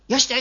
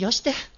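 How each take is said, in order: First: It is said in a plain, neutral tone. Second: It is said in a warm, affectionate tone. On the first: A simple request to stop. "よしてじゃなくて" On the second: A request to stop that hides fondness. "愛情が伴う"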